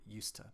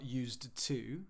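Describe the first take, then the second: First: The word 'to' has a reduced schwa vowel. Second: The word 'to' has a full vowel. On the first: The speaker calls it right. "we can find it in used to" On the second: The speaker calls it wrong. "it's not used to"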